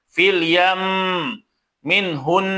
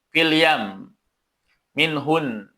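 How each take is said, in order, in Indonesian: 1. Bunyi m dan n yang ganda ditahan dan didengungkan. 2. Bunyi m dan n yang ganda dipotong pendek. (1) "Jadi ada nabah dan penekanan" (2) "itu tidak ada penekanan"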